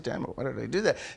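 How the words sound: The line is aimed inward at the speaker himself. The speaker calls it right. "they say, ... It's aimed"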